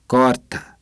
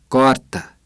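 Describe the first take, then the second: No difference in how they are said.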